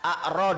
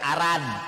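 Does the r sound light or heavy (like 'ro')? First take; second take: heavy; light. First: The r is heavy, with the vowel sounding like o. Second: The r is light, with a plain a vowel. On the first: The speaker calls it right. "nggak ada ra, adanya ro" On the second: The speaker calls it wrong. "Dibacanya bukan arad"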